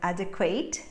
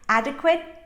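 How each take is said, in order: First: The last syllable is drawn out and full. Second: The last syllable is short with a schwa. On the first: The speaker calls it wrong. "instead of adequate, as Brazilians will say" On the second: The speaker calls it right. "they have to be reduced"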